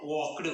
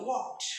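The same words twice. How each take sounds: First: "walked" ending in a voiced D after the K; wrong D ending. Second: "walked" ending in a crisp unvoiced T; correct T ending. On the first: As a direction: demonstrate "walked" wrongly as walk-d. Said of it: "We cannot pronounce". ("walked" च्या शेवटी ट ऐवजी ड) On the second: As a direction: say "walked" with -ed as T, not D. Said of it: "ईडी ऐवजी आपण ट असा उच्चार करतो". ("walked" च्या शेवटी ड नाही, ट) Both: Shown as a demonstration.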